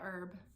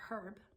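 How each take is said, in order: First: The word begins without an h sound. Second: The word begins with an h sound.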